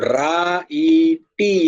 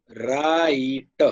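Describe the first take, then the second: First: રા ઈ ટી split into separate syllables, each sounded out; mock the wrong way, every letter pronounced; wrong pronunciation. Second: Drawn out slowly, રાઈટ with a silent e; correct pronunciation. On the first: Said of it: "એવું નથી બોલતા ને". (રા ઈ ટી છૂટું છૂટું, ખોટી રીતે બોલો) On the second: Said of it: "હવે આને બોલીએ છીએ કેમ?". (રાઈટ ધીમેથી, એક જ અક્ષરની જેમ બોલો) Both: Shown as a demonstration.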